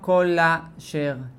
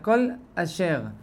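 First: The two words run together, swallowing the aleph. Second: The aleph is clearly pronounced at the second word. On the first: The speaker calls it wrong. "אני נזהר לא לומר כל אשר" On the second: The speaker calls it right. "מקפיד לבטא את האלף"

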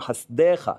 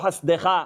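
First: The word is said with a full e vowel. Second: The word is said with a reduced shva vowel. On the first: This is the form used at a pause or verse end. The speaker calls it right. "אז אומרים חסדיך" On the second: This is the form used in mid-verse. The speaker calls it wrong. "ולא חסדיך"

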